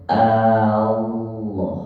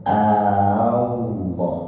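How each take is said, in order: No difference in how they are said.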